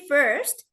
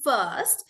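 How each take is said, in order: First: "first" with the R pronounced; American R in "first". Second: "first" drawn out with no R; long R-less vowel in "first"; British "first". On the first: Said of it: "like American". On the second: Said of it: "it won't be first like American". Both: Shown as a demonstration.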